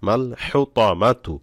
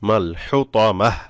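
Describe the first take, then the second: First: The word ends with a full tu syllable. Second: The word ends with a bare h sound. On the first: The reading continues without stopping. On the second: The reciter stops on this word.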